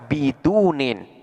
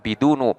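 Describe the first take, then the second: First: The word ends in i followed by n. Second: The word ends in a short u vowel. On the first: The word is fully cut off from a following word. "akan dibaca bidunin" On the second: The omitted following word is still understood. "boleh pula dibaca bidunu"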